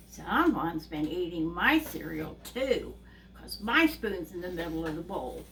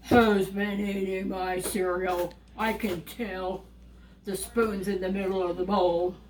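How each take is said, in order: First: Lightly voiced mother bear, lower pitch; a hint of a put-out mother bear; Mama Bear. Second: Papa Bear. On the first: Mother bear finding her cereal touched too, mild complaint. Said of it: "Mama Bear looks at the cereal and goes". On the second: Acted. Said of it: "Papa Bear goes and looks at his cereal and he goes".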